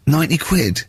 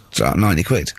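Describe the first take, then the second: First: Raised, incredulous question; mock disbelief. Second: A mildly lowered, matter-of-fact locksmith; low flat tradesman quote. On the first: Locked-out mate balking at the locksmith's fee, incredulous. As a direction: echo the price in light shock. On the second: Retold or imitated. Locksmith telling a locked-out man his fee, flat and low.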